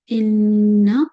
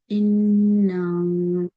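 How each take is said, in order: First: The final vowel is held for one count. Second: The final vowel is lengthened and drawn out. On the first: It means indeed. The speaker calls it right. "Instead of inna" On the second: It means indeed we. The speaker calls it wrong. "if you are saying inna, you are changing the meaning"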